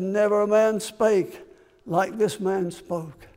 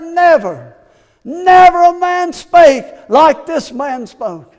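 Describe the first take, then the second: First: Hushed awe. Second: Loud, slow, high proclamation; proclaimed. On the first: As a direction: let it fall to a near hush. Same quote repeated hushed. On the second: Officers telling authorities of Jesus, loud slow proclamation. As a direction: ring it out in awe. Officers' awed reply, preached big. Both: Acted.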